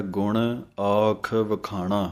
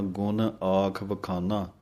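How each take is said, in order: First: ਵਖਾਣਾ with a clear retroflex ṇ. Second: ਵਖਾਨਾ with a plain dental n; wrong plain n. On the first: Teacher showing the correct ਣ in ਵਖਾਣਾ. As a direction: curl the tongue for ਣ in ਵਖਾਣਾ, said slowly. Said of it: "ਅਣਾਣਿਆਂ ਦਾ ਧਿਆਨ ਰੱਖਣਾ ਹੈ।". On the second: Teacher imitating the common wrong n in ਵਖਾਨਾ. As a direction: flatten ਣ into n in ਵਖਾਨਾ, as the mistake. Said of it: "ਨੰਨਾ ਬੋਲ ਦਿੰਦੇ ਹਾਂ". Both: Shown as a demonstration.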